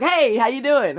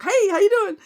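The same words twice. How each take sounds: First: Loud, high, overeager hey; mock-eager coworker greeting. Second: Much higher, louder mock hey; hammed-up eager coworker; overeager greeting. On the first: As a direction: pounce on her with a bright loud hello. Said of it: "He would pounce on me". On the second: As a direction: leap on her with a squeaky eager hello. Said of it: "he would jump on me".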